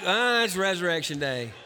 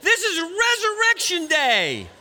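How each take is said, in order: First: It is said flatly, without any enthusiasm. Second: It is said with heart and passion.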